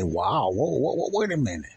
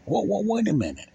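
First: A first easy "whoa, wait a minute", near his usual pitch; catching himself lightly, not yet alarmed; mild surprise. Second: "Whoa" pitched much higher than the first take, falling off at the end; a second, more startled "whoa, wait a minute"; stronger surprise. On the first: Telling his audience how his mind stops him, mildly surprised. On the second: Telling his audience how his mind stops him, now clearly surprised. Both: Retold or imitated. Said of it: "And I use it and I say".

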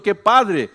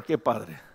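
First: "qué padre" cooed louder, rising delight; gushing praise. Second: "qué padre" said lower and softer, doubting; skeptical echo. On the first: Pastor mimicking relatives gushing "qué padre" over a baby. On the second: Pastor echoing the relatives' "qué padre" with skepticism. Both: Acted.

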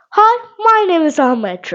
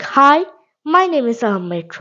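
First: Higher, livelier reply to the mirror. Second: Said in the usual way. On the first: Shown as a demonstration. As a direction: answer your own reflection brightly. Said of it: "you need to backward and say".

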